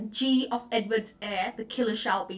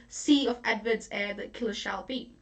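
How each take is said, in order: First: "G of Edward's heir" with G said as the letter gee; the letter "G" spoken plainly at the start; original G line. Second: "C of Edward's heir" with C said as the letter see; the letter "C" spoken plainly at the start; changed C line. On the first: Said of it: "That's the line". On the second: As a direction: read "C" clearly as the letter C, Pacino's version. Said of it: "he changes it". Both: Shown as a demonstration.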